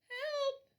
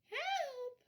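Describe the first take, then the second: First: It is said a little louder. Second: It is said very quietly.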